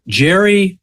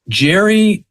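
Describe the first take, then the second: No difference in how they are said.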